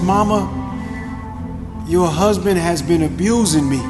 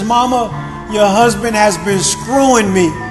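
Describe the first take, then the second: First: It is said louder, with some aggression. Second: It is shouted at full volume.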